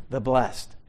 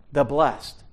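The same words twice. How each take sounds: The two takes are said the same way.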